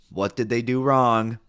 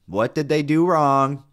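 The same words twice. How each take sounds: First: Emphatic rhetorical question; scolding question. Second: Louder, higher, drawn-out demand; escalated scolding question. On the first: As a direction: press the question, a bit louder. Rhetorical scolding, first take. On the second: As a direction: hammer the question slowly and loudly. Repeats scolding with more force. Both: Real, not acted.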